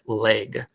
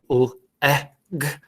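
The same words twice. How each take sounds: First: The vowel has a Minnesota accent. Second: The vowel has a standard pronunciation. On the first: The speaker calls it wrong. "that Minnesota accent comes in... We'll say it like leg" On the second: The speaker calls it right. "when really it should be leg"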